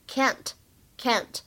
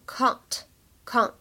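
First: It has the flatter American vowel. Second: It has the broad British vowel. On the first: "而在美式发音呢，我们读作梅花音，所以是can't" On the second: "在英式发音当中我们可以读成can't"

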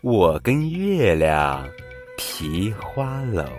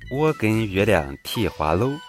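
First: It is spoken in standard Mandarin pronunciation. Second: It is spoken in Changsha dialect pronunciation.

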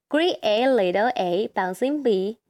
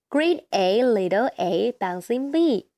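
No difference in how they are said.

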